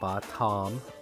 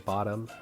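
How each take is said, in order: First: The middle t is said clearly and crisply. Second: The middle t is softened in casual speech. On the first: Each sound is spelled out to help with spelling. The speaker calls it right. "we're going to phonetically say it correctly" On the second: This is the everyday relaxed way of saying it. The speaker calls it wrong. "we kind of say bottom uh, because we get lady"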